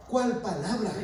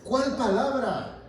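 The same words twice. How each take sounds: First: Light rising ask of cuál palabra; quizzical, cuál lifted; mock question. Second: Slow, falling, CUÁL punched; challenging the congregation, slow and pointed; stressed challenge. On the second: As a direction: press the word cuál hard. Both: Shown as a demonstration.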